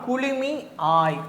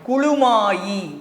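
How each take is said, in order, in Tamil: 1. முடிவு 'mi aay' என பிரித்துச் சொல்லப்படுகிறது. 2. முடிவு 'maayi' என ஒன்றாகச் சொல்லப்படுகிறது.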